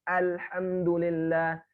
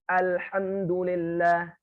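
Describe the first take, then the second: No difference in how they are said.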